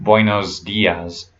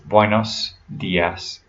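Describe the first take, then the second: First: The word endings have a buzzing Z sound. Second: The word endings have a hissing S sound. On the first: The speaker calls it wrong. "it's not buenos dias" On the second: The speaker calls it right. "it's buenos dias"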